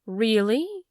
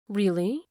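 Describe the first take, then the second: First: Really? louder and brighter with a rising lift; Really? cried out in mild delight; joyful cry. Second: Said in the usual way. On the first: A narrator's reading. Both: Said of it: "cried the marionette, jumping around with joy".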